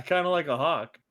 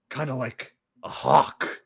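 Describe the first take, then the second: First: Said in the usual way. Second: Slow, considering murmur from the boss; slow musing boss. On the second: Retold or imitated. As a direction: mull it over slowly like an unimpressed boss.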